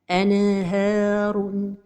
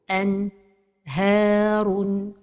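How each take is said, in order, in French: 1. Le N est relâché avec un petit rebond. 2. Il y a une coupure entre le N et le H. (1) "La première erreur, c'est al-qalqalah de an-noun as-sakina" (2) "c'est la pause"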